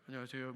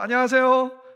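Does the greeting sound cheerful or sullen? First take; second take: sullen; cheerful. First: It sounds sullen and displeased. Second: It sounds cheerful, with a smile.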